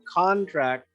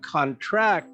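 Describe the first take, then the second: First: The stress is on the first syllable. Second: The stress is on the second syllable. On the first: It is used as a noun. "You can have a word that's a noun" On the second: It is used as a verb. "If the accent's on the second syllable, it becomes a verb"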